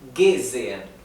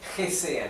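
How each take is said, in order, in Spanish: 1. La primera g es una g dura. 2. La primera g es suave, no es una g dura. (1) "es gesehen; se pronuncia como la G dura" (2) "esto no es gesehen"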